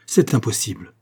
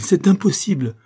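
First: Contained cry of disbelief; exclaiming. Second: Loud, high protest of disbelief; crying out. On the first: Aide startled by the minister's news, exclaiming. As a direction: exclaim in shock without raising the pitch. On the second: Aide refusing the minister's news, crying out. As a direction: burst out, pitch jumping up. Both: A narrator's reading. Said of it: "s'écria-t-il".

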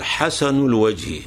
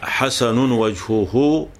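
First: حسن الوجه linked as "hasanu l-wajhi"; حسن with short -u, joined to الوجه at normal pace; tanween dropped. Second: Very slow حسن وجهه as "hasanun wajhuhu"; حسن وجهه spelled out slowly, every case ending voiced; tanween sounded. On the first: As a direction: run حسن straight into الوجه with no n. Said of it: "نقول". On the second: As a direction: draw out حسن with its full -un ending, then وجهه. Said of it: "أو بدل ما نقول". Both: Shown as a demonstration.

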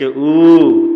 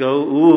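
First: ऊ held loud for three beats; extra-long ऊ. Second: ऊ held for two beats; long vowel ऊ. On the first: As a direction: stretch ऊ far past a normal long vowel. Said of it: "ऊ तीन मात्रा". (तीन मात्रा का प्लुत ऊ) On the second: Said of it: "दीर्घ ऊ हो गया, दो मात्रा". (दो मात्रा का लंबा ऊ) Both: Shown as a demonstration.

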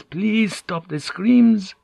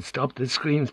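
First: High, drawn-out anguished begging; desperate plea. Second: Softer, raised-pitch begging; hushed plea. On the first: Prisoner hearing a man tortured, begging desperately. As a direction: beg slowly, pitch climbing far up. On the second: Prisoner hearing a man tortured, pleading softly. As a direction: beg it under strain, held back. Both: A narrator's reading. Prisoner begs screams to stop.

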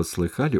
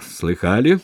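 First: Said in the usual way. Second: "Слыхали?" loud with rising pitch; "Слыхали?" as a punchy, teasing question; intriguing tone. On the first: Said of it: "Слово". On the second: A narrator's reading. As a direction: toss out "Слыхали?" as eager bait. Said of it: "он произнёс таким тоном".

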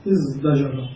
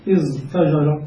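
First: ازدجر said quietly with d, as "izdajara"; final form. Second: ازدجر said with the t voiced to d, as "izdajara"; ازدجر with d in place of t; changed form. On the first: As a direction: settle on ازدجر with d in place of t. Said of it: "فنحول التاء دالا فنقول". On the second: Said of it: "فنقول في زجر". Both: Shown as a demonstration.

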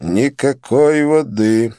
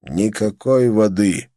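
First: Cold refusal. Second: Flat refusal. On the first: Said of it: "сказал Казим Али". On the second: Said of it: "сказал Казим". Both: A narrator's reading.

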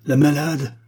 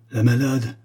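First: La malade? thrown out higher and louder; second La malade? as a louder outcry; crying out. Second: Said in the usual way. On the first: A narrator's reading. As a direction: explode on the echoed word malade. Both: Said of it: "s'écria Bogin, qui riait et pleurait".

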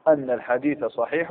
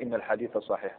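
First: "أن" with an opening a-vowel, anna; fatha op أن. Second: "إن" with an opening i-vowel, inna; kasra on إن. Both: Shown as a demonstration. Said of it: "هل يجب الفتح ولا الكسر".

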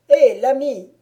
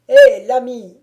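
First: Loud mocking hail; a loud, taunting call upward; calling out again. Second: Loud hail up into the tree; baron calling out. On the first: Baron calls again to the silent woodcutter, loud mocking hail. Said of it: "reprit le baron". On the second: Acted. Baron hails the peasant up in the tree, loud call. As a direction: shout it across the distance, commanding. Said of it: "cria le baron".

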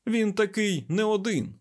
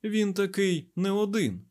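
First: High, emphatic exclamation; heated, raised-pitch declaration; exasperated. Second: Slow, high, softened insistence; mild, measured emphasis; gentle repeat. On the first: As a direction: insist on it, losing patience. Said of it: "не витримав Айзек". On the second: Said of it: "м'яко повторив Айзек". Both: A narrator's reading.

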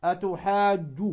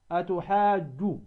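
First: Said in the usual way. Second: "أتحاج" very slow, with the vowel after the jim held long; drawn-out madd. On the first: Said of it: "هذه مضمومة الجيم". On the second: Shown as a demonstration. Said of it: "فتمد الواو كم؟ ست حركات". ("أتحاج" بمد طويل ست حركات)

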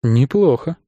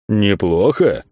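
First: Said in the usual way. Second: НЕПЛОХО drawn out as a questioning echo; drawn-out, disbelieving НЕПЛОХО; incredulous echo. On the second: A narrator's reading. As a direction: throw НЕПЛОХО back in disbelief. Friend echoes it back, indignant.

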